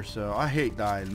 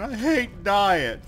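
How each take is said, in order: First: Said in the usual way. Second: High, drawn-out whine; long, high moan of frustration; whiny complaint. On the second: Real, not acted. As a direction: stretch it out slowly, pitched up. Repeats complaint after dying in game.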